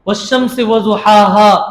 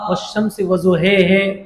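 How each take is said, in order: First: The final vowels are pronounced as open 'ah'. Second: The final vowels are pronounced as fronted 'eh'.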